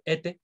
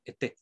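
First: "été" stressed on the first é, final syllable weak; wrong first-syllable stress. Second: "été" stressed on the final é, first syllable light; stress on last syllable. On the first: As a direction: lean on the opening vowel of "été". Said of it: "no pronuncio été". ("été" con acento en la primera sílaba) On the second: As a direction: put the weight at the end of "été". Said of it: "el acento siempre recae en la última sílaba". ("été" con acento en la última sílaba) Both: Shown as a demonstration.

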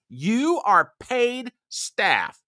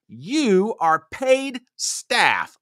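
First: Slower, higher repeat; every word punched, higher and slow; more emphatic repeat. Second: Slow, punched words; each word hit hard and slow; emphatic. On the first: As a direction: drive it home harder. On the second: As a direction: spell it out word by word. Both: Real, not acted. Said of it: "Let me say that again".

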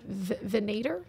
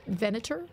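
First: "Venator" with a long AY in the middle; unsure pronunciation. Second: "Venator" with a short unstressed middle vowel; alternative pronunciation. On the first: Player guessing at an unknown word, "Venator" as ve-NAY-ter. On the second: Player's second guess at the word, "Venator" as VEN-uh-ter. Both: Shown as a demonstration. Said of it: "how do you even say that word".

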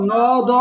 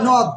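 First: "ন, দ" pulled into two separate sounds; split apart. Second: "নদ" as one closed syllable, no break. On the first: Teacher asking if we say it so, "ন, দ" split in two. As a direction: say "ন", stop, then "দ". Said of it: "এভাবে উচ্চারণ করবো আমরা". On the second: Teacher showing the correct way, "নদ" in one syllable. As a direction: run "ন" and "দ" together as a single "নদ". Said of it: "একবার উচ্চারিত হয়েছে". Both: Shown as a demonstration.

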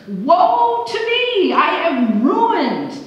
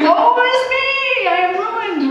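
First: Slow, high, loud wail of despair; anguished wail. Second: Very high, loud, slow wail of ruin; mock lament. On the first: Acted. Preacher voicing Isaiah's despair, a drawn-out high wail. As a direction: stretch it out like a man undone. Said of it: "his response sort of confused me". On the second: Preacher echoing Isaiah for the congregation, hammed-up wail. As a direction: wail it, half joking.

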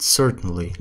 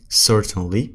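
First: "certainly" run together as in quick speech; fast-speech reduction. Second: "certainly" said in full, syllable by syllable; careful pronunciation. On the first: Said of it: "لما عم نحكيها بسرعة". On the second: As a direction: articulate every sound in "certainly". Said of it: "مثل مثلًا certainly صارت certainly". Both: Shown as a demonstration.

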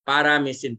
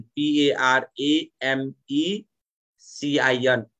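First: Said in the usual way. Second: पिएआरएएमइसिआइएन spelled slowly, one letter at a time: P-A-R-A-M-E-C-I-N; slow letter-by-letter spelling of paramecin. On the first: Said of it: "पिएआरएएमइसिआइएन". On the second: Shown as a demonstration. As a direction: spell the word out letter by letter for the class. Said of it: "spelled out letter by letter".

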